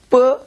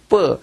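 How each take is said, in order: First: The first sound is soft and gentle. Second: The first sound is hard and strong. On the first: The letter has no dot. "이 점이 빠지게 되면은 뭐, 부드럽게 하는 거예요" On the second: The letter has a dot. "점이 있다는 것은 좀 강하게 하라는 말이에요"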